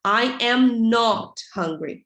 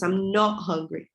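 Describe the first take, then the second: First: Slow "I am not", NOT stretched out; emphatic negative. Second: Said in the usual way. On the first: Shown as a demonstration. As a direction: lean hard on "am not" before "hungry". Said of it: "ela serve pra ênfase". (ênfase em "am not", lento e alongado) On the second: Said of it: "a forma contraída é a mais usada".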